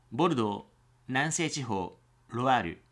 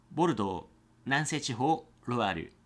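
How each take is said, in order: Both takes have the same delivery.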